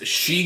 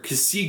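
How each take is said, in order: First: It is pronounced like the word she. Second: It is pronounced with two syllables, ka-see. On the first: "I've always been pronouncing it as She Gundam" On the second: "or Kasi Gundam"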